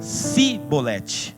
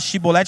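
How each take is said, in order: First: The word begins with an s sound. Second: The word begins with an sh sound. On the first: The person is not from that people. The speaker calls it wrong. "eles falavam Cibolete" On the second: This is the correct way the word is said. The speaker calls it right. "em vez de falar Shibolete"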